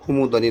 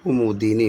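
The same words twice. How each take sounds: First: कुमुदनी said with short "a" in the middle, ku-mud-nee; wrong कुमुदनी, three syllables; कुमुदनी as the teacher's example of an error; wrong form. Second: कुमुदिनी said with a clear "i", ku-mu-di-nee; कुमुदिनी spelled out in speech; correct form. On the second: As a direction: correct कुमुदिनी, four syllables. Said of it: "कुमुदनी नहीं होता". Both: Shown as a demonstration.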